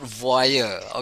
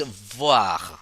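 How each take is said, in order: First: The vowel is said as 'oy' plus 'yer'. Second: The vowel is said as a 'wa' sound. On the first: The speaker calls it wrong. "it's not voyeur" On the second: The speaker calls it right. "It's voir. So O I we pronounce wa"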